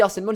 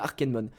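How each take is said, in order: First: The middle consonant is an S sound. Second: The middle consonant is a K sound. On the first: The speaker calls it wrong. "Moi je dis Arsenmon, c'est une mauvaise habitude" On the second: The speaker calls it right. "ça se dit Arkenmon"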